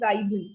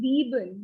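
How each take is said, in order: First: The first vowel sounds like 'eye'. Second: The first vowel sounds like 'ee'. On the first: The speaker calls it wrong. "not Zaiben" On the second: The speaker calls it right. "So we are focusing on E part. So Zeben"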